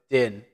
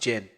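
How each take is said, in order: First: The name begins with a D sound. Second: The name begins with a J sound. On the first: "I like to pronounce it Din because there's a D in it" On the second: "I think it's pronounced Jin"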